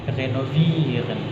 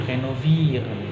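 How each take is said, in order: The two takes are said the same way.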